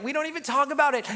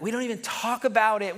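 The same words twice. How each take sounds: First: We don't even talk about it pushed higher and faster; emphatic repeat. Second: Said in the usual way. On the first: Shown as a demonstration. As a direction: drive the repeat home urgently. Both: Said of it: "repeated with contrast".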